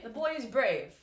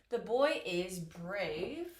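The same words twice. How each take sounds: First: Said in the usual way. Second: Slow dictation. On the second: Shown as a demonstration. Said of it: "Okay, the boy is brave".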